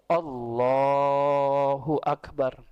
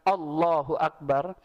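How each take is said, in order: First: The phrase is drawn out a little longer. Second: The phrase is said briskly, without lengthening.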